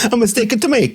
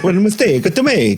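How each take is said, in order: First: Higher, teasing Italian accent imitation; mock Italian accent. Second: Quick, higher, hammed-up Italian accent; mock Italian accent. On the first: Cohost teasing guest's slip, mock Italian accent. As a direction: echo her line in a playful Italian accent. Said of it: "your Guillermo, uh, accent". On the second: Cohost repeating the guest's slip, hammed-up Italian accent. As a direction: rattle it off in a comic Italian accent.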